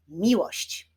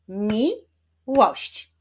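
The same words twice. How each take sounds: First: Said in the usual way. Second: "Miłość" broken into mi, łość; syllable by syllable. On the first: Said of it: "Wyklaszczmy sylaby w wyrazie". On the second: Shown as a demonstration. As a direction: clap out "Miłość" in two separate beats. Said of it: "Wyklaszczmy sylaby". („Miłość” sylabami: mi, łość)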